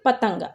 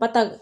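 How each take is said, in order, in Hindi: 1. दूसरे स्वर के बाद एक नासिक ध्वनि आती है। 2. दूसरा स्वर बिना किसी नासिक ध्वनि के बोला जाता है। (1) "बिंदी लग गई है ना, तब हम इसे पढ़ेंगे" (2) "बिना अंक की बिंदी के पढ़ेंगे"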